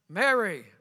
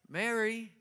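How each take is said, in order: First: It is said in a plain, impersonal way. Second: It is said in a warm, personal way.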